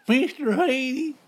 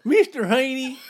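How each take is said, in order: First: High, slow, stretched character voice; Mister Haney voice. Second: High, loud character voice; squeaky TV neighbor impression; Mister Haney voice. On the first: Retold or imitated. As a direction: drag out the name in a squeaky voice. Repeating the impression. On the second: Imitating Green Acres character.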